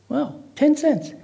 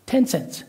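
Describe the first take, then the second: First: Slow, high-pitched astonishment; amazed. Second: Said in the usual way. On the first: Acted. Caller reacts to the president's cheap price, astonished. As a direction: draw it out in amazed disbelief.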